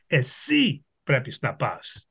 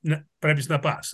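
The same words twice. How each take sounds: First: Εσύ fronted and pressed, pointing at the listener; stress on Εσύ. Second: Said in the usual way. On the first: Shown as a demonstration. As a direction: hit Εσύ as if pointing straight at them. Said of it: "I'm pointing specifically to you". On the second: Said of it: "instead of".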